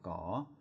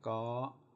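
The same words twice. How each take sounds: First: The syllable is said with a rising tone. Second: The syllable is said with a high tone. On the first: "My chatawa is a rising tone" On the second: "My three is a high tone"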